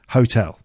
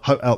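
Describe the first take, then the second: First: The T is clearly pronounced. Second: The T is replaced by a glottal stop. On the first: The speaker calls it right. "We pronounce the T" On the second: The speaker calls it wrong. "You can't do a glottal stop with that word. No one's saying hotel"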